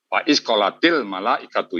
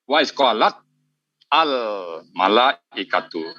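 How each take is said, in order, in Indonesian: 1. Huruf t memakai vokal i, menyambung ke al. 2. Huruf t tidak punya vokal sebelum al. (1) "ini berubah menjadi kasrah" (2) "ini aslinya gini Pak"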